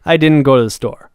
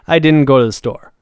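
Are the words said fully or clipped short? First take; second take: clipped; clipped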